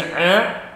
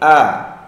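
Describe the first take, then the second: First: The vowel onset is pressed and tense. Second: The vowel onset is relaxed, from deep in the throat. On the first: The speaker calls it wrong. "jangan ditekan di sini" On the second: The speaker calls it right. "tapi di sini"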